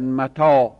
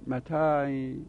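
First: The vowels are a clear open 'a' sound. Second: The vowels lean toward 'e' and 'i'. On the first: "نمیگن متا" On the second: "اون فتحه تا را به سمت کسره میاره، الف را میل بیا میده"

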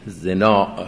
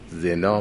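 First: The final vowel is long, ending in a glottal stop. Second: The final vowel is short, with no glottal stop. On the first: "با مد میخونیم" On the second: "به قصر زنا میگیم"

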